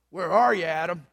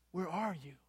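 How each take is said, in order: First: Gruff, loud demand; gruff reading. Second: Soft, loving question; tender, loving. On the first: Pastor reading God's call to Adam, gruff. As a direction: read it gruffly, hard and loud. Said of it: "If the aspiring pastor read it gruffly". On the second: Pastor reading God's call to Adam, tenderly with love. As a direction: read it tenderly, much softer. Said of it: "if he read it tenderly and with love". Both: Shown as a demonstration.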